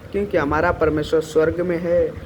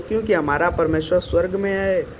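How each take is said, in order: The two takes are said the same way.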